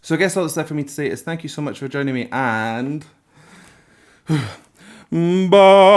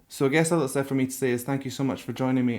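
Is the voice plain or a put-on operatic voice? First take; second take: operatic; plain. First: It moves from low operatic tone to gritty high. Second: It is said in a plain speaking voice.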